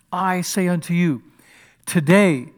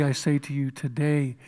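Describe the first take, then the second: First: "today" set apart by pauses and hit loud; pause, then punch "today" firmly; stress on today. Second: Said in the usual way. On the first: Shown as a demonstration. Preacher stressing Jesus' promise, "today" loud and separate. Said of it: "here's the piece I want to emphasize".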